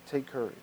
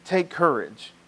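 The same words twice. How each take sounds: First: Soft echo. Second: Said in the usual way. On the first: Shown as a demonstration. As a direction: repeat "Take courage" very softly, almost under the breath.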